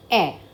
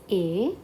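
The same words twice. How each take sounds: First: A as an open "eh"; E accent grave. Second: A as a closed "ay"; E accent aigu. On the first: Teacher revising again, accent grave, A said "eh". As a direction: say A like "eh", jaw more open. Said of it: "Accent grave". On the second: Teacher revising again, accent aigu, A said "ay". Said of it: "Accent aigu". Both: Shown as a demonstration.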